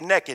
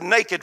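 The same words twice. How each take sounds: First: The first vowel sounds like 'e' in 'neck'. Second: The first vowel sounds like 'ay' in 'day'. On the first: This is the local Texas pronunciation. "N-E-K-K-I-D. That's the way we say it in Texas" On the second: This is the general pronunciation for outsiders. "I said naked for your benefits"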